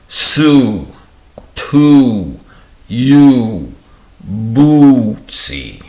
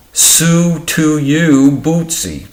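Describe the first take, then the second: First: "Sue, to, you, Bootsy" one by one, each oo drawn out; separated vowel demonstration. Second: "Sue to you, Bootsy" run together, high, with long oo; linked vowel demonstration. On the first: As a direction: stretch the oo in "Sue, to, you, Bootsy", pausing between words. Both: Shown as a demonstration. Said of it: "I'll try this again".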